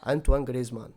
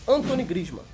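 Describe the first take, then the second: First: The first name sounds like French Antoine. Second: The first name sounds like English Anthony. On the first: The speaker calls it right. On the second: The speaker calls it wrong. "tem que saber pronunciar o nome dele certinho"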